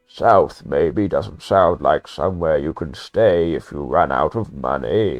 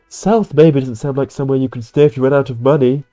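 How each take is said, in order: First: The voice sounds old and wizened. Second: The voice sounds younger, not old and wizened. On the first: The speaker calls it right. "more old and wizened. There we go. Better" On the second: The speaker calls it wrong. "This isn't this isn't the right voice for encyclopedia"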